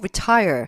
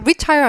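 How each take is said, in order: First: The stress is on the second syllable. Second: The stress is on the first syllable. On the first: The speaker calls it right. "강세 때문에" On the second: The speaker calls it wrong. "retire 아니고"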